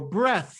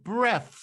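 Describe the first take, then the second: First: The word ends in a standard th sound. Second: The final th is replaced by another friction sound.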